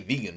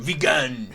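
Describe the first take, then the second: First: It is said in a plain, common accent. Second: It is said in a put-on posh accent.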